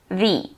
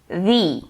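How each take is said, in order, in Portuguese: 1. Usa a forma pronunciada antes de sons de vogal. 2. Usa a forma pronunciada antes de sons de vogal.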